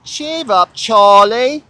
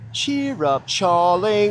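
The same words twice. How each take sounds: First: High, loud hammed-up Cockney "Cheer up, Charlie"; Cockney accent. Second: A light, breezy Cockney "Cheer up, Charlie"; Cockney accent. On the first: Shown as a demonstration. Showing her own Cockney accent on camera. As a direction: belt it out in a big Cockney voice. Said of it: "That's my Cockney accent". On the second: Retold or imitated. Teasing a Charlie with a mild Cockney voice. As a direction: toss off a mild Cockney taunt. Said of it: "with a Cockney accent".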